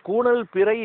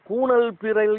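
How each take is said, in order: The two takes are said the same way.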